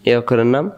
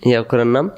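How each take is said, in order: Both takes have the same delivery.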